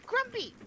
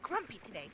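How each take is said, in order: First: Grumpy! squealed much higher; high teasing squeal. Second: Said in the usual way. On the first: Acted.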